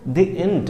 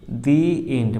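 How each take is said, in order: First: The article is said with a short 'uh' vowel. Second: The article is said with a long 'ee' vowel. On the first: The speaker calls it wrong. "वहाँ पे द end नहीं होता है" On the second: The speaker calls it right. "दी end होता है"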